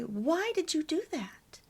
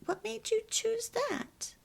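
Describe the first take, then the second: First: Higher-pitched demo of a challenge; accusatory question. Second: High, light inquiring demo; non-blaming question. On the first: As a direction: show the blaming way to ask. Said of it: "So try never to say". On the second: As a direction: model a curious question instead of blaming. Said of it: "it's hard to not say that". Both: Shown as a demonstration.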